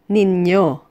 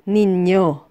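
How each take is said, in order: No difference in how they are said.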